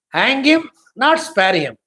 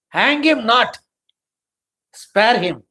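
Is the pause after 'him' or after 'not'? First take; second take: after him; after not. First: The pause comes right after the first 'him'. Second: The pause comes right after 'not'.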